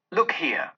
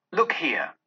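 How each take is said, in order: First: Hushed, sorrowful whispered "Look here". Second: "Look here!" voiced and urgent, pitched up, not whispered; ghostly exclamation. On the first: Acted. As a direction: breathe "Look here" to him like a secret. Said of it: "was the spirit's sorrowful reply". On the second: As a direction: call his eyes downward, urgently. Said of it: "exclaimed the ghost".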